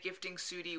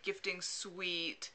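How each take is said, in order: First: The last word sounds like soot-ee. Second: The last word sounds like sweet. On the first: The speaker calls it wrong. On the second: The speaker calls it right.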